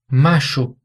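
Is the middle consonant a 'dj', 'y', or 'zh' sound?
zh. The middle consonant is a zh sound. "como se fosse um som de J em português"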